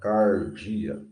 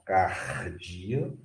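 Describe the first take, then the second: First: The R is said in the Goiano style. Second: The R is said in the Carioca style. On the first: "com R do goiano" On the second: "com aquele R do carioca"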